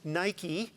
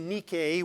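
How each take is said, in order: First: The word is said in English brand style. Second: The word is said in Greek style. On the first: The speaker calls it wrong. "often mispronounced Nike" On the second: The speaker calls it right. "which is the correct pronunciation"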